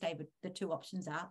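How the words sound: The tone sounds neutral, calm and confident. The options are simply restated without judgment. The speaker calls it right. "repeating it with the same neutral, confident tone"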